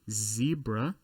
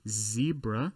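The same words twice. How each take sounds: First: It is said in an American way. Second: The same.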